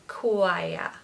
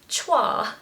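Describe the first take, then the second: First: It begins with a 'kw' sound, like quiet. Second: It begins with a 'ch' sound, as spelled. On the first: The speaker calls it right. "just think of the word quiet... take away the T" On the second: The speaker calls it wrong. "If it was being said phonetically, it would be chwa"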